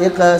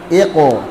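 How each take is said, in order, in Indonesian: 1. Bunyi q tipis dan diakhiri vokal mirip e. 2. Bunyi q tebal dan diakhiri vokal mirip o. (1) "Iqe iqe salah" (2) "Iqo tebalkan"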